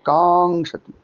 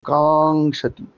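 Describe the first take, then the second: No difference in how they are said.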